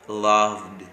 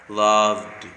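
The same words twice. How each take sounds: No difference in how they are said.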